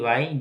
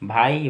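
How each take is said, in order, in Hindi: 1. अक्षर की शुरुआत v जैसी आवाज़ से होती है। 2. अक्षर की शुरुआत b जैसी आवाज़ से होती है। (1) "लेकिन वाई ही बोलना सही होगा" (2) "भाई वाई जो भी आप बोल सकते हैं"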